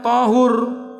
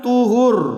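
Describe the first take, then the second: First: The first vowel is an a sound. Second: The first vowel is an u sound. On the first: "Boleh pula dibaca dengan di fathah" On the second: "Ta apa kalau dibaca dengan dhammah"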